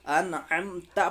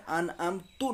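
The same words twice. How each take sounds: First: Slow "अनअमता" ending in an open "ता"; correct "ta" ending. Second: "अनअमतु" ending in a "u" vowel; wrong "tu" ending. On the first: Teacher models the correct word, "अनअमता" ending in ta. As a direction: end "अनअमता" on a clear "a" vowel. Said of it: "अनअमता पढ़ना है". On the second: Teacher shows what to avoid, "अनअमतु" ending in tu. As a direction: close "अनअमतु" on "tu". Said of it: "अनअमतु नहीं पढ़ना है". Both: Shown as a demonstration.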